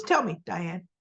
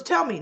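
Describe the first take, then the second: First: Said in the usual way. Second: Higher demand. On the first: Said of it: "No, she goes, she goes". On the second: Retold or imitated. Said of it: "And so she goes".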